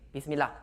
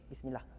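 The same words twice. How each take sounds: First: It is said at a moderate volume. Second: It is said in a very low voice.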